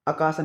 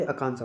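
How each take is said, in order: First: आकाशा with no nasal, "a-kaa-sa"; wrong pronunciation. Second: आकांक्षा with a nasal middle, "a-kaan-sa"; correct pronunciation. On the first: Teacher shows the mistake, आकाशा without the nasal. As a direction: leave the middle of आकाशा un-nasalised. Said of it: "नहीं होता भाई". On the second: Teacher gives the right form, आकांक्षा with middle nasal. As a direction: put an n sound inside आकांक्षा. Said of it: "होती है". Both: Shown as a demonstration.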